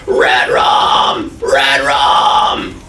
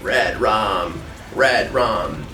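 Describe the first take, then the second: First: It is a full raspy fry scream. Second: It is spoken in a normal voice.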